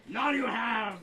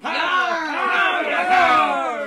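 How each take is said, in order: First: Pirate voice. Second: Slow, loud pirate bellow. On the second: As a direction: drag it out like a pirate captain. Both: Retold or imitated. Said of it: "You thought it was a pirate voice".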